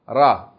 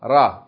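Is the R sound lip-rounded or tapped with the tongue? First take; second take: tapped; tapped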